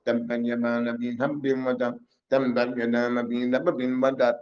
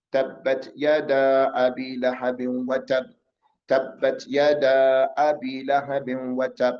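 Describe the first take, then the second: First: Fast, run-together Arabic recital; rushed recitation. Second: Measured recitation. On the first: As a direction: rattle the verse off in a hurried monotone. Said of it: "You're not gonna go". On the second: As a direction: recite it evenly, drawing out each long vowel. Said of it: "read it like it's, you're reciting". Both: Shown as a demonstration.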